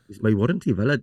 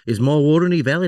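First: It is spoken in an attempted South African accent. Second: It is spoken in an attempted Australian accent. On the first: "Can you date in South African?" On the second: "Go Australian"

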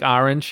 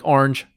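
First: The word is said with two distinct syllables. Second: The word is squeezed into a single syllable. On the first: "Like in Jersey, it's distinctly two" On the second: "in California, it's very lazy. ... it's just one syllable"

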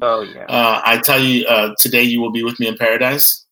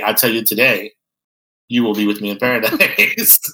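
First: The pause comes right after 'I tell you'. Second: The pause comes right after 'I tell you today'. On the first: The speaker calls it right. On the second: The speaker calls it wrong.

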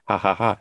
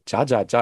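First: Each syllable starts with a breathy H sound. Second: Each syllable starts with a hard J sound. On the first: The speaker calls it right. "No, it's Spanish pronunciation" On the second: The speaker calls it wrong. "the first time I saw that, my friend, I was like"

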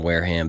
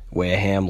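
First: It is said in a milder, standard accent. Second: It is said in a broad local Boston accent.

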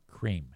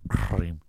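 First: The word is made near the teeth and tongue tip. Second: The word is made deep in the throat. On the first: "if a normal person says cream, it's up here. It's up by my teeth and the tip of my tongue" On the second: "you can feel that little fucking thing in the back of your throat going cream"

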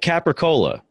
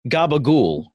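First: The word is said in full, ending in cola. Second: The word is clipped and voiced, ending in gool. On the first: "That and Capricola" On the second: "They pronounce it gabagool"

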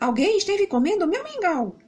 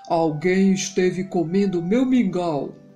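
First: It is said in a fairly big voice. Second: It is said in a very big voice.

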